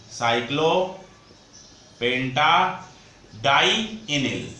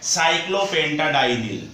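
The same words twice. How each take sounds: First: "साइक्लोपेंटाडाइनिल" drawn out very slowly, part by part; slow dictation. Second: Said in the usual way. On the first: Shown as a demonstration. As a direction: break "साइक्लोपेंटाडाइनिल" into separate parts with long pauses. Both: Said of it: "इस ligand का नाम होता है".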